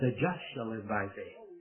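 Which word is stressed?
just. The word just carries the main stress. The focus is on who the righteous person is. "he put the emphasis on the just"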